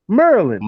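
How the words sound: The syllables are shortened and run together.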